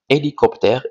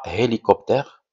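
First: The word begins with a vowel, no h sound. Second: The word begins with an audible h sound. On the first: The speaker calls it right. "on dit hélicoptère" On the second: The speaker calls it wrong. "et pas hélicoptère"

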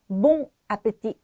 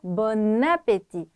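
First: The two words are said separately without linking. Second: The n sound links into the following vowel. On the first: The speaker calls it wrong. "안 하고요" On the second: The speaker calls it right. "연음을 해주었습니다"

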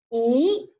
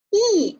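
First: The pitch rises from middle to high. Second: The pitch falls sharply from high to low. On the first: "二声的时候向上扬，读一啊一" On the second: "四声呢读乙啊"

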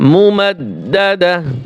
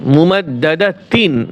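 First: The word ends with a soft h sound. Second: The word ends with a t sound and -in. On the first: The reader stops on this word. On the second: The reader continues without stopping on the word.

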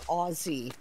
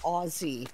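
First: The middle consonant is a Z sound. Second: The middle consonant is a Z sound.

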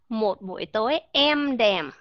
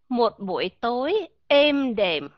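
First: The vowel in 'êm đềm' is the open e. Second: The vowel in 'êm đềm' is the close ê. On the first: "Nếu mà chúng ta đổi từ âm E ra âm E" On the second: "Âm E, đúng rồi"

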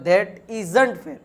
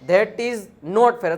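First: The words 'is not' are contracted to 'isn't'. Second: The words 'is not' are said in full. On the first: "તો that ઇઝન્ટ ફેર, એ રીતે તમે બોલી શકો" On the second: "હે that ઇઝ નોટ fair"

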